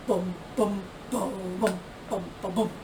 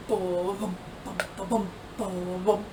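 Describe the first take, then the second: No difference in how they are said.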